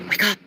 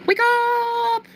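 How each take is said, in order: First: Said in the usual way. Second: "Wake up." sung way up high and held long; sung, a high drawn-out singsong "Wake up.". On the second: Pretend. Sung, waking the viewers with a high drawn-out call.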